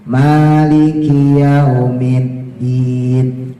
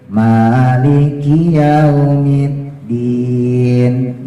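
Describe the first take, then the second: The two takes are said the same way.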